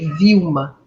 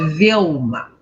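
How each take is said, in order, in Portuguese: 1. O L antes do M soa como um U. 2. O L antes do M é um L claro. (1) "no português o nosso L tem som de U" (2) "em inglês ele me chama de Velma"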